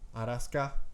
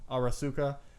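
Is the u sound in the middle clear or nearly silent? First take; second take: nearly silent; clear. First: The middle u vowel is nearly silent. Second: The middle u vowel is clearly pronounced.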